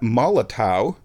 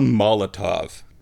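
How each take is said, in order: First: The name ends with a w sound. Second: The name ends with a v sound. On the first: The speaker calls it wrong. "That's not Molotow, because W's are pronounced like V's in German" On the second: The speaker calls it right. "It makes it a Molotov"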